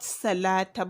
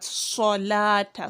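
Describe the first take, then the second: First: The first s sound is light and plain. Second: The first s sound is heavy and emphatic. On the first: The speaker calls it wrong. "not salata" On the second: The speaker calls it right. "but solata, sodun"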